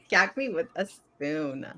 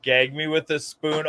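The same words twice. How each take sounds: First: Put-on slow drawled valley girl line. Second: Lightly mocking valley girl echo. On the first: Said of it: "Oh my God, how old are you?". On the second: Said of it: "how old are you?".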